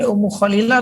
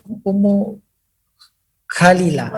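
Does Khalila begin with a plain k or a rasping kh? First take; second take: kh; k. First: Khalila begins with a rasping throaty kh sound. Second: Khalila begins with a plain k sound. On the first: The speaker calls it right. "pakai kho" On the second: The speaker calls it wrong. "pakai k"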